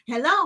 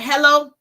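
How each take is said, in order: First: It sounds happy and friendly. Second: It sounds angry and unfriendly.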